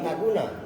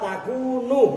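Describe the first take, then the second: First: The word ends with an 'a' vowel. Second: The word ends with a 'u' vowel. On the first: The speaker calls it wrong. "bukan takuna" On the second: The speaker calls it right. "khobarnya kan an la takunu"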